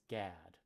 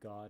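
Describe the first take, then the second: First: The vowel sounds like the one in 'cat'. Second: The vowel sounds like the one in 'hot'. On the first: This is the pronunciation in Shakespeare's time. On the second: This is the modern pronunciation.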